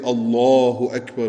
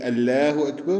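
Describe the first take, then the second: First: The L in Allah is heavy and full. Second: The L in Allah is light and thin. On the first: The speaker calls it right. "which is the right, correct pronunciation" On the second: The speaker calls it wrong. "which is thin, which is incorrect"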